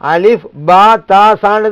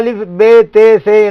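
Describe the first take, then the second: First: The letter names end with an 'a' vowel. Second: The letter names end with an 'e' vowel. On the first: This is how scholars know the letters should be said. The speaker calls it right. "ஆலிம்களுக்கு தெரியும் அலிஃப் பா தா சான்னு தான் சொல்லுங்க" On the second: This is how Urdu speakers say the letters. The speaker calls it wrong. "அந்த உருது மொழியில் அலிஃப் பே தே சே என்று தான் உச்சரிப்பாங்க"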